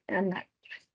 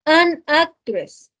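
First: An actress tossed off softly and lower; quiet recap. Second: An drawn out and stressed, whole phrase very slow; slow demo. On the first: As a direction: drop it softly as a quick summary. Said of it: "Ok, miren". (repaso en voz baja y rápida) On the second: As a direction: stretch An in "An actress" like a teacher showing it. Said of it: "Miren este ejemplo que tenemos aquí". (ejemplo lento, alargando An) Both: Shown as a demonstration.

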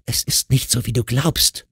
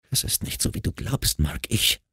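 First: Higher-pitched, fully voiced protest; insistent pleading. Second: Soft, whispery protest; hushed pleading. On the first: Wife repeats her denial over his yelling, insistent pleading. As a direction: plead aloud, pitch raised. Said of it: "wiederholte seine Frau". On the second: Wife tries to explain to furious husband, hushed pleading. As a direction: plead under your breath. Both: A narrator's reading.

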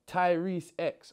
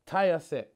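First: "Tyrese X" as the name Tyrese, then the letter X; corrected reading. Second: "Tyre Sex" read as two words, tyre then sex; misreading a username. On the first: Correcting a misread fan username to "Tyrese X". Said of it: "Or is it Tyrese X?". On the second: Reading a fan's username aloud, misread as "Tyre Sex". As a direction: say "Tyre Sex" like a tyre plus the word sex, a little louder. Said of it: "I beg you tell me I'm reading that wrong". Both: Shown as a demonstration.

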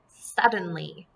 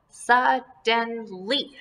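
First: Said in the usual way. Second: "Suddenly" slowly as SUD, DEN, LY, with gaps; split into syllables. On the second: Shown as a demonstration. Teacher breaks up the word for pupils, "Suddenly" in separate syllables. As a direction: give each syllable of "Suddenly" its own beat. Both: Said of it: "this is going to be one syllable".

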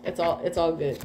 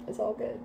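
First: Said in the usual way. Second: "It's all good" dropped to a quiet murmur; a quiet afterthought repeat; soft echo. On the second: Acted. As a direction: let "It's all good" fade away softly.

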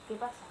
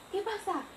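First: Said in the usual way. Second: Mock alarm. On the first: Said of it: "En plan". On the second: Girl retelling mother's scare over the bleeding, mock alarm. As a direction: retell it with a high, startled lift. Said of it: "mi madre se asustó y dije".

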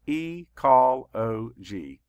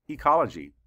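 First: Very slow, each syllable split apart. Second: Said in the usual way. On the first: Shown as a demonstration. Teacher counting syllables for the class, slow and separated. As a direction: chop the word into its beats. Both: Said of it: "Let's count the syllables".

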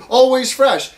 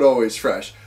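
First: Bright, higher, louder mock ad read of "Always fresh."; mocking a sign slogan. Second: Lower, disbelieving repeat of "always fresh?"; scornful echo. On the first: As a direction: sing out "Always fresh." like a cheesy slogan, with a fall on "Always". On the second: Retold or imitated. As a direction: drop the voice and scoff at "always fresh?". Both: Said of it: "And, and the big sign".

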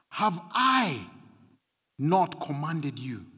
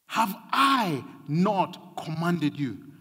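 First: Said in the usual way. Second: Slow, weighty "Have I not commanded you?" with each word pressed; stressed, slowed. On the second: Shown as a demonstration. Pastor pressing God's question on the church, slow and stressed. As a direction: lean on "not", drawn out and deliberate. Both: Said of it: "And he's stressing this".

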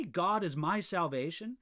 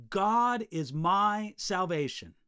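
First: Said in the usual way. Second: Slow and louder, each word weighted; emphatic declaration. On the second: Acted. Preacher voicing the worshiper's cry, slow and emphatic. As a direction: proclaim it slowly with full conviction.

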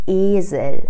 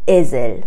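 First: "ایزل" with a long closed E, almost an I; "ایزل" starting between E and I; vowel between E and I. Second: "ازل" with an open first E, as in "ezzel"; "ازل" said wrongly with open E. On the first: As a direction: stretch and narrow the first vowel of "ایزل" towards "ee". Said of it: "یه چیز بین ا و ای هست". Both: Shown as a demonstration.

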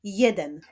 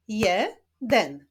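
First: Said in the usual way. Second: "jeden" split as je... den; syllable by syllable. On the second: Shown as a demonstration. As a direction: clap out "jeden" in two separate beats. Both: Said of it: "Wyklaszczmy sylaby w tych wyrazach".

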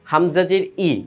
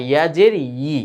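First: Said in the usual way. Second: Final ই pressed as yee, with a y glide; with pressure. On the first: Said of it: "হামজা আর ইয়ার পার্থক্য". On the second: Shown as a demonstration. Teacher contrasting ইয়া with হামজা for pupils, with pressure. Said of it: "একটু চাপ দিয়ে".

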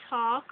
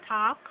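First: Said in the usual way. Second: "talk" said tahk; Jamaican pronunciation. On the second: Shown as a demonstration. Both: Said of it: "we would say talk".

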